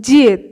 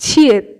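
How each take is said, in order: First: জিয়ত said with the Korean vowel, unlike Bengali উ; Korean উচ্চারণে জিয়ত; Korean vowel demo. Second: ছিয়ত said with the Korean vowel, unlike Bengali উ; Korean উচ্চারণে ছিয়ত; Korean vowel demo. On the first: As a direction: carefully model জিয়ত for learners. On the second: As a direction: carefully model ছিয়ত for learners. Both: Shown as a demonstration. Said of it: "উচ্চারণটা একটু আলাদা".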